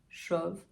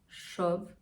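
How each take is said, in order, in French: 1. La voyelle est assez ouverte. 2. La voyelle est assez ouverte.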